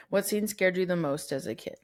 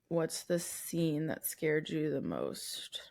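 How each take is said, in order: First: Said in the usual way. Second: Slow, eerie whisper. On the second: Pretend. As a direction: breathe it out slowly and spookily. Re-reading the question, spooky aside.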